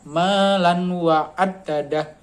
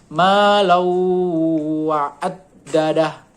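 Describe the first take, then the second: First: The n sound is pronounced clearly before w. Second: The n merges into a nasalized w sound. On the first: This is the underlying form before the rule applies. "kalau aslinya" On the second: This is the recited form with the assimilation rule applied. "kalau dikenakan hukum idgham guna, maka bacanya"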